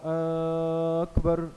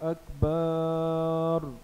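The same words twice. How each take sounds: First: The first vowel is drawn out long. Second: The second vowel is drawn out long. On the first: "अकबर के शुरू के अलिफ को बढ़ाकर पढ़ा" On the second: "अकबर की बा को किसी ने बढ़ाकर पढ़ा"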